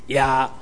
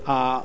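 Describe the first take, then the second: First: The word begins with a y-like glide. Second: The word is a bare vowel without a glide. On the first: The speaker calls it wrong. "毋是呀" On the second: The speaker calls it right. "应该读作啊"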